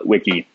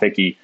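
First: The name begins with a W sound. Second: The name begins with a V sound. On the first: The speaker calls it right. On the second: The speaker calls it wrong.

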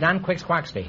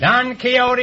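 First: The name is said like 'Quixquaxty'. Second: The name is said with the usual pronunciation. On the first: "Until I was 40 years old, I pronounced that Don Quixquaxty" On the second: "Don Quixote is right"

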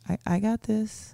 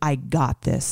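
First: It is said hesitantly, with a stammer. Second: It is said with confidence.

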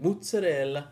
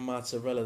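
First: It is said with an exaggerated Italian accent. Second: It is said with a plain American accent. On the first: "It's like when Italians, ... they be like mozzarella" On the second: "instead of saying mozzarella"

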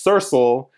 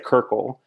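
First: Both c sounds are said like s. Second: Both c sounds are said like k. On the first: "either it's Kirkle or it's Sersel" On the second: "when I was a kid, I used to say Kirkle"

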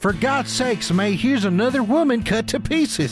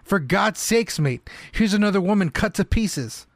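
First: It is said in a strong Southern American accent. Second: It is said in a weak attempted English accent. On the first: "He's from East Texas now" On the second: "Apologies for the non-existent English accent"

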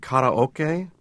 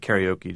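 First: The word is said with Japanese vowels and rhythm. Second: The word is said with English vowels and rhythm. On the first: This is the original form of the word. "it's actually karaoke, and which is a Japanese term" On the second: This is the familiar form for Western listeners. "I'm going to stick with karaoke"

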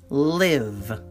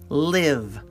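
No difference in how they are said.

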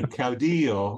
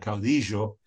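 First: It is said with a general, non-Argentine pronunciation. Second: It is said with an Argentine Spanish pronunciation.

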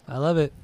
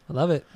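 The two takes are said the same way.

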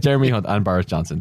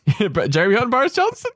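First: The voice falls at the end like a statement. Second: The voice rises at the end like a question. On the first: The speaker sounds certain. The speaker calls it right. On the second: The speaker sounds unsure. The speaker calls it wrong.

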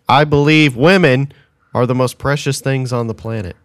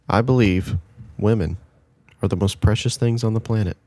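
First: The sentence is said at a louder volume. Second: The sentence is said at a quieter volume.

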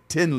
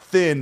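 First: The word begins with a hard 't' sound. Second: The word begins with a soft 'th' sound. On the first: The speaker calls it right. "the official pronunciation of this band from Ireland ... but Tin Lizzy" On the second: The speaker calls it wrong. "is not Thin"

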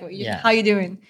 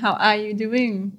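First: The words run together quickly and linked. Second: The words are said slowly and separately. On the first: "They speak quite fast. They gel all the words together" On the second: "Rather than"

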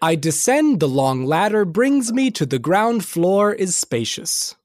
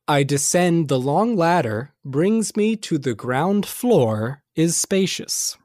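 First: It is said at a faster pace. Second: It is said at a slower pace.

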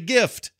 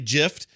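First: It begins with a hard G sound. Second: It begins with a soft G sound. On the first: The speaker calls it right. "You say gift. It's a freaking G. It's a hard G" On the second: The speaker calls it wrong. "You don't say gift"

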